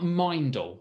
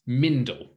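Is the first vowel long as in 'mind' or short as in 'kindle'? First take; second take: long; short. First: The first vowel is long, as in mind. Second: The first vowel is short, as in kindle. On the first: "we use the I sound represented by the letter I" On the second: "maybe because I've seen words like Kindle"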